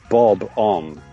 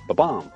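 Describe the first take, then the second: First: The word is said slowly, syllables kept apart. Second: The word is said quickly, syllables run together.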